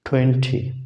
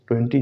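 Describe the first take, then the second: First: The first sound has a puff of air. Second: The first sound has no puff of air. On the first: The speaker calls it right. "ठी की तरह है ये" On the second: The speaker calls it wrong. "ट्वेंटी जैसे कहते हैं, बिल्कुल नहीं है"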